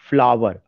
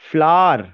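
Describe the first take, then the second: First: The word is said with two syllables. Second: The word is said with one syllable. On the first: The speaker calls it wrong. "अगर मैं उसका उस तरह से pronunciation करूंगा तो दो सिलेबल निकाल रहा हूं" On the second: The speaker calls it right. "There is only one syllable"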